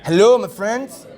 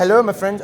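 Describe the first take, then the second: First: Slow, drawn-out attempt at a Canadian accent on "Hello"; mock Canadian accent. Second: Put-on brisker repeat of the Canadian accent after coaching; quick Canadian accent try. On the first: Interviewer tries a Canadian accent for the player: slow, hammed-up Canadian. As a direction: ham up a Canadian accent, stretching it slowly. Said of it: "Canadian accent?". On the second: Interviewer repeats the player's Canadian greeting: light mock Canadian. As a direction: copy the player's Canadian "Hello" at normal speed. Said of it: "I'll try to do an accent in Canadian".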